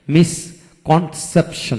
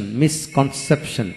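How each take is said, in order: First: misconception slowly split with gaps; syllable by syllable. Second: Said in the usual way. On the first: Shown as a demonstration. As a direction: pause between the parts of misconception. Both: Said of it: "যে word তিনের অধিক syllable থাকে".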